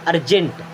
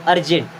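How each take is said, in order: Both takes have the same delivery.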